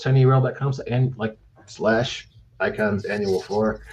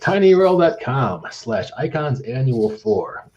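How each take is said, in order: First: It is said very fast and stumbling. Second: It is said slowly in a polished announcer voice. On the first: The speaker calls it wrong. "I said it way too fast and messed it up" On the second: The speaker calls it right. "the full radio voice"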